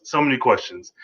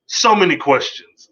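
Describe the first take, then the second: First: Said in the usual way. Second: Excited first take of so many questions. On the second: Real, not acted. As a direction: throw the line up in wonder.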